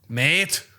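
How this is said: It is said in an Australian accent. "What about Australian?"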